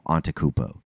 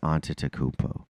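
First: One syllable of the name is left out. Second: Every syllable of the name is pronounced. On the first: The speaker calls it wrong. "You just drop an entire syllable" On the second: The speaker calls it right. "there, you got it"

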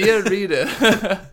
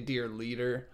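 First: It is said in a put-on Asian accent. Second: It is said in the speaker's plain accent.

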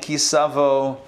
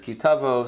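First: The second word begins with an s sound. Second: The second word begins with a t sound. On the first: "I grew up saying Ki Savo" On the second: This is the Israeli, modern pronunciation. "the Israeli way and the modern way of saying it is Ki Tavo"

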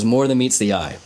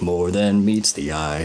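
First: It is said in a plain, normal voice. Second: It is said in a mechanical robot voice.

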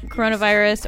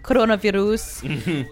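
First: It is said in a plain American accent. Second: It is said the way German kids say it.

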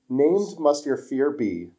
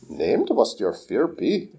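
First: It is said in the speaker's ordinary voice. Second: It is said in a put-on character voice. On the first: "he quotes Yoda" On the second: "You need to do it in the other voice"

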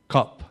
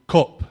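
First: The word is said in a standard accent. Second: The word is said in a Derby accent. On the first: "instead of cup" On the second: "I say cup"

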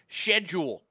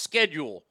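First: It is said with the British pronunciation. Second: It is said with the American pronunciation. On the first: The speaker calls it wrong. "they're the same idiots that pronounce it schedule" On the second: The speaker calls it right. "when it's clearly pronounced schedule"

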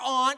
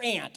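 First: The word does not sound like the insect. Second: The word sounds like the insect 'ant'. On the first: It names a relative. The speaker calls it right. "Susie's your aunt" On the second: It names an insect. The speaker calls it wrong. "A little insect is your aunt"

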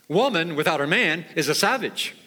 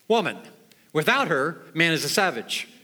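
First: It is said as one unbroken phrase. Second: There are pauses after woman and her.

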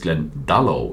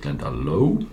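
First: The stress falls early in the word. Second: The stress falls late in the word. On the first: The speaker calls it right. "ich glaube eher, dass es Glendalough ist" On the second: The speaker calls it wrong. "und nicht Glendalough"

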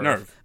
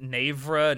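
First: The word is said as one syllable, nerve. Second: The word is said as two syllables, navra. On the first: The speaker calls it right. "It's supposed to be pronounced nerve, like the word nerve" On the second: The speaker calls it wrong. "I've seen clips of people pronouncing it navra"

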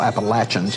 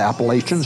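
First: It is said the way locals say it. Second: It is said the usual outsider way. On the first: The speaker calls it right. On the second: The speaker calls it wrong.

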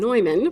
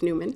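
First: The name is said with its original pronunciation. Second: The name is said with the American pronunciation. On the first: This is how the bearer said his own name. "as he would have pronounced it" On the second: This is how the name was said in the United States. "in the United States pronunciation was Newman"

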